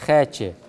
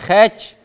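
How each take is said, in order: First: The word ends in a vowel sound. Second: The word ends in a consonant sound. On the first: The speaker calls it right. "внимание обратите на э, гласную в конце" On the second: The speaker calls it wrong. "Не хэч"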